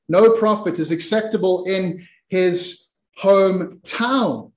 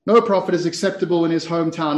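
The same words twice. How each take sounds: First: "No prophet is acceptable in his hometown" slowly, with pauses before the last words; slow, weighty declaration. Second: "No prophet is acceptable in his hometown" run through fast; quick restatement. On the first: Jesus answering the crowd in the synagogue, slow and weighty. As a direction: spell out each phrase deliberately. Verse declaimed, then repeated quickly. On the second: Preacher repeating the verse before moving on, quickly. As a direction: rattle it off in one even run. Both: Acted.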